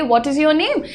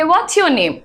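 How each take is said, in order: First: "What is your name" with IS said separately; full form. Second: "What's your name" with IS merged into What's; contracted form. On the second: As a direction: run What and is together as "What's". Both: Shown as a demonstration. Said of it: "या फिर वो कहेंगे".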